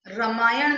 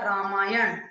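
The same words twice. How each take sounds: First: रामायण said "ramaayan"; wrong short vowel. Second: Said in the usual way. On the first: Shown as a demonstration. Teacher correcting a mistake, रामायण with short first a. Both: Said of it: "नहीं होता".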